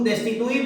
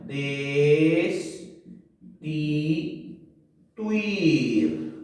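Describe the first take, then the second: First: Said in the usual way. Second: "Destituir" stretched very slowly as des, ti, tuir; syllable by syllable. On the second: Shown as a demonstration. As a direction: separate "Destituir" with long pauses, keeping tuir together. ("Destituir" separado muy lento: des, ti, tuir) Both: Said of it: "por qué no separo la U y la I".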